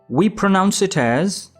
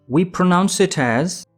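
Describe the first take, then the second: The two takes are said the same way.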